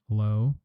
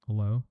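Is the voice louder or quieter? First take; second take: louder; quieter. First: The voice is louder, at higher output gain. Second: The voice is quieter, at lower output gain.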